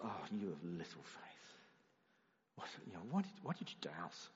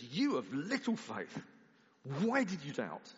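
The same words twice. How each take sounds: First: Weary exasperation. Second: Harsh rebuke. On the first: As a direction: sound tired and let down with the disciple. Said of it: "If you think Jesus is just like". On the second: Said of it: "If you think that Jesus says". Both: Shown as a demonstration.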